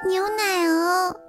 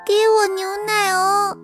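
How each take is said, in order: First: The call is said in a small, quiet voice. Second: The call is shouted in a loud voice.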